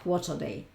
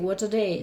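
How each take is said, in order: First: It sounds displeased and exasperated. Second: It sounds delighted and enthusiastic. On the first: The day was awful. "o todo lo contrario" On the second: The day was great. "si yo digo wow, genial"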